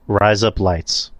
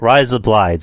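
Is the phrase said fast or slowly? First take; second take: slowly; fast. First: The phrase is said at a slow pace. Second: The phrase is said at a fast pace.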